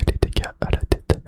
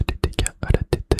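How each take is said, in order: Both takes have the same delivery.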